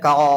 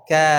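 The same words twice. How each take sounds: First: The vowel is pronounced heavy and thick. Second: The vowel is pronounced light and thin. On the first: The speaker calls it wrong. "Bukan ka" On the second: The speaker calls it right. "dibaca dengan tipis pula alifnya"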